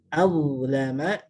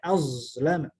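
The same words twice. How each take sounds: First: The first consonant is a soft 'th' sound. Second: The first consonant is a hissing 'z' sound. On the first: The speaker calls it right. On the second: The speaker calls it wrong.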